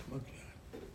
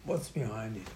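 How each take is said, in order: First: Breathy hushed whisper of the question. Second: Said in the usual way. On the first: Shown as a demonstration. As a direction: lean in and whisper it like a secret. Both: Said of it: "repeats question, then drops to a whisper".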